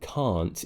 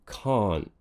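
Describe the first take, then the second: First: The final t is clearly released. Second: The final t is swallowed as a glottal stop. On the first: "instead of it being can't" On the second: "you kind of swallow it. You don't actually produce it"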